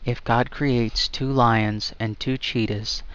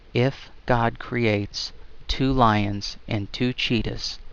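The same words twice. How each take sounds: First: It is said at normal speed. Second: It is said more slowly.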